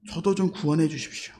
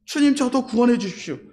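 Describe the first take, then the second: First: Softer, lower, hushed entreaty; humble plea. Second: Said in the usual way. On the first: Acted. Dying robber confessing to Jesus, humble plea. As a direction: plead quietly and humbly. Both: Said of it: "예수님께 고백합니다".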